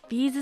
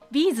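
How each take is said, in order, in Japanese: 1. このピッチパターンは'beads'とは違います。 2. このピッチパターンは'beads'と一致します。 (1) "ビーズって言ってしまった。" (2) "ビーズなんですよ発音。"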